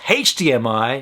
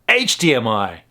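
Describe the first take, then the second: First: The letter H begins with an h sound. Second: The letter H begins without an h sound. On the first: The speaker calls it right. "that's why H D M I is H D M I" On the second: The speaker calls it wrong. "not H D M I"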